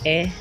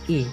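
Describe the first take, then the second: First: The letter is said with an 'eh' vowel. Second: The letter is said with an 'ee' vowel. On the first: This is the Indonesian letter name. "Dalam bahasa Indonesianya perbedaannya itu lebih jauh berbeda" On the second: This is the English letter name. "Mengucapnya seperti mengucap I"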